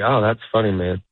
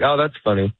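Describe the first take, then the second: First: Measured "that's funny", dropping low at the end; unhurried, understated appreciation; sincere comic's approval. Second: Slightly hurried polite brush-off; a little quicker. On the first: One comic to another, understated sincere approval. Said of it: "And look, in this tone". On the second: Getting out of the situation, a slightly quicker brush-off. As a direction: say it briskly, not really amused. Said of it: "You say it a little bit quicker". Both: Shown as a demonstration.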